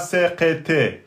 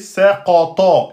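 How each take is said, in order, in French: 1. Les consonnes sont simples, avec un son léger. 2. Les consonnes sont emphatiques, avec un son lourd et sombre. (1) "et pas saqata" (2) "c'est saqata"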